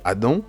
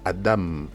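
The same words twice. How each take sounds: First: The word ends without a clear m sound. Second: The word ends with a clear m sound. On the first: This is the habitual French way of saying the name. The speaker calls it wrong. "beaucoup dans la francophonie ont souvent pris l'habitude de dire Adam" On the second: This is how the word is said in Hebrew. The speaker calls it right. "dans l'hébreu, c'est Adam"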